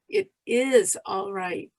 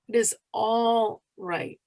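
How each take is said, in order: First: The stress falls on the word is. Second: The stress falls on the word all. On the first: "emphasize each word separately" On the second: "emphasize each word separately"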